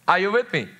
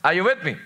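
The two takes are said the same way.

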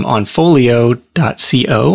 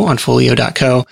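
First: "co" spelled as two letters, C-O; spelled-out web ending. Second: "co" said as one syllable, koh; web ending as word. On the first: Podcast guest giving a site address, "co" spelled out letter by letter. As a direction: say "co" letter by letter, see-oh. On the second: Podcast guest repeating a site address, "co" said as one word. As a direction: say "co" as a word rhyming with go. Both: Real, not acted.

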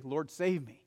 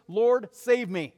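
First: Said in the usual way. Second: Loud, slow, higher panicked cry; panicked plea. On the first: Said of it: "what we should be crying every single day". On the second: Acted. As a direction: beg for rescue in panic. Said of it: "You can hear it in his voice".

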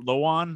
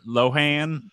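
First: Lohan said as lo-AHN, no h sound; old pronunciation. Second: Lohan said as lo-HAN, with a clear h and flat a; new pronunciation. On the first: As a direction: say Lohan as LOH-ahn, without the h. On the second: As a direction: say Lohan as loh-HAN, breathing the h. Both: Shown as a demonstration. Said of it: "It's not Lohan anymore".

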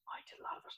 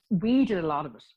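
First: Barely audible whisper under the breath; whispered aside. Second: Said in the usual way. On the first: Real, not acted. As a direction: slip it in as a confidential, whispered correction. Whispered joking aside correcting herself.

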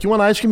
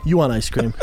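First: Higher, slightly louder offer; coaxing a toddler. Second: Said in the usual way. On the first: Retold or imitated. Dad offering his two-year-old ice cream, coaxing. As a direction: pitch it up to tempt a little kid.

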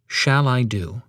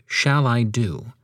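First: Shall stressed, tune rising at the end. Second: Shall stressed, whole line slow and deliberate. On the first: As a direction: hit Shall, then lift the question. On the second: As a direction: drag it out, weight on Shall. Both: Shown as a demonstration. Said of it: "The next words to emphasize would be".

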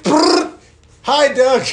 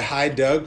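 First: Very high, loud drive-by shout. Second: Said in the usual way. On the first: Retold or imitated. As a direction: yell it out like a drive-by. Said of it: "and I'm like". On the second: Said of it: "I woke up to".

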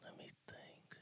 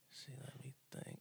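First: Breathy whisper, thinking aloud; soft whispered musing; whisper to self. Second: Said in the usual way. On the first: Real, not acted. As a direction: murmur it under your breath while deciding. Mulling over his top five.

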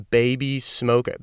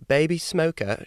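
First: Said in the usual way. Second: Higher-pitched mock British accent. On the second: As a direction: say it with a playful put-on UK accent. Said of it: "she's from the U K".

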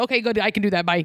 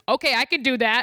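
First: Breezy mock dad. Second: Plain. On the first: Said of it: "They're like". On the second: Retold or imitated. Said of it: "He goes".

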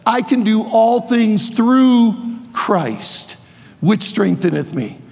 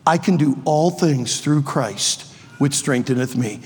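First: Slow, ringing preacher proclamation of the verse; proclaimed verse. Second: Quiet, sincere verse. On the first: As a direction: declare it slowly to the whole room. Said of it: "is the one who says". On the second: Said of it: "Let me introduce you to a friend". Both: Shown as a demonstration.

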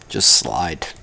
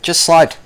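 First: Soft low mantra. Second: A higher, punchy just slide; higher mantra. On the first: Calming himself with his mantra, low and soft. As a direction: lower and softer, inward. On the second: Chanting his mantra to himself, higher and punchy. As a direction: pop it out higher, firmly. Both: Shown as a demonstration.

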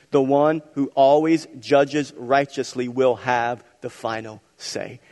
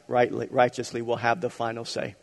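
First: Slow, each word leaned on, "always" stressed; slow emphatic restatement. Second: Said in the usual way. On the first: Shown as a demonstration. Pastor driving home his third point, slow emphatic stress. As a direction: lean on "always" and land "the final say". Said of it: "repeated for emphasis". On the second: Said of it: "repeats the line slowly".

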